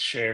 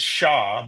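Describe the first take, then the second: First: The name rhymes with air. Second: The name rhymes with law. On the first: The speaker calls it right. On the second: The speaker calls it wrong.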